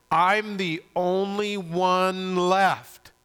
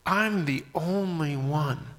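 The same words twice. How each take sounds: First: Higher, very slow, drawn-out wail of complaint; Elijah's lament. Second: Slow, lightly voiced lament; mild self-pity. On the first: Acted. Elijah complaining to God, in drawn-out protest. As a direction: stretch every word in loud self-pity. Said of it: "what was his reply?". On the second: Preacher echoing Elijah's complaint, in mild slow lament. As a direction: draw it out with a touch of woe. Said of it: "Have you ever felt that way?".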